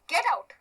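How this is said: It is said angrily and forcefully.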